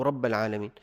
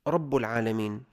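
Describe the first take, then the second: First: رب said "rabba", ending in a; fatha on ba. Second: رب said "rabbu", ending in u; damma on ba. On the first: Teacher showing a minor mistake, رب said "rabba". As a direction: put an a vowel on the ba of رب. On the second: Teacher showing a minor mistake, رب said "rabbu". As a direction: put an u vowel on the ba of رب. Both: Shown as a demonstration. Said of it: "بضم الباء أو فتحها".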